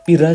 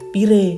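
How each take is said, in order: First: The word ends with a wide a vowel. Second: The word ends with an e vowel. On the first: "A ngomongnya ngapak istilahnya" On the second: "belakangnya e semuanya"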